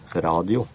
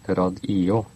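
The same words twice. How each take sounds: First: The stress is on the first syllable. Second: The stress is on the second syllable. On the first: "I det norske radio ligger trykket på A, og I-en uttales nesten som J" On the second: "Trykket ligger alltid på den nest siste stavelsen. I-en skal uttales som en egen stavelse og blir her den nest siste"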